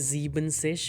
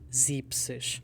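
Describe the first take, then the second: First: The word is said with three syllables. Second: The word is said with two syllables. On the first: The speaker calls it wrong. "We don't say siebzig" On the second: The speaker calls it right. "we say siebzig"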